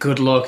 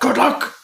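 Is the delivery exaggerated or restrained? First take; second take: restrained; exaggerated. First: It is said in a restrained, understated way. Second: It is said in an exaggerated, hammy way. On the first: "the iconic line" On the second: "He's overacting. He's hamming it"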